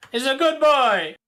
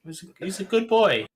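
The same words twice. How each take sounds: First: Higher and louder, insisting; loud insistence. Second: Said in the usual way. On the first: Real, not acted.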